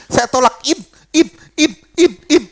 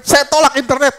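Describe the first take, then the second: First: Imitating a pastor stuck on the word in; stuck, unable to finish. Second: Said in the usual way. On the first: Pastor mimics a bound man failing to say internet, stuck repeating. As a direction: repeat in as if the word won't come out. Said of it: "Nggak bisa ngomong internet". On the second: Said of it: "kita sembari tumpang tangan".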